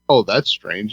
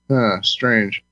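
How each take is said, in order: First: It sounds casually surprised, not accusing. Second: It sounds suspicious and accusing.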